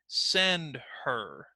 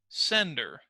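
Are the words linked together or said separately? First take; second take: separately; linked. First: Said slowly as two separate words with h. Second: Run together as one word, h dropped. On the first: "let's say it slowly" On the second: "when we link them together"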